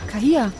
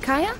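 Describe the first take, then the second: First: The name is said with an h sound. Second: The name is said without an h sound. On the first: The speaker calls it wrong. "wird mein Nachname grundsätzlich falsch ausgesprochen" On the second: The speaker calls it right. "Anstatt Kaya?"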